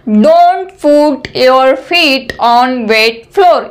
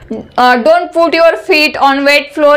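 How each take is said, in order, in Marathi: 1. वाक्य हळू, शब्दा-शब्दाने बोलले आहे. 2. वाक्य सामान्य वेगाने बोलले आहे.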